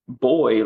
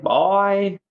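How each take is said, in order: First: Said in the usual way. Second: Put-on "boy" drawn out and pitched high, Southern style; Southern drawled boy. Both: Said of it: "he's got a Southern accent".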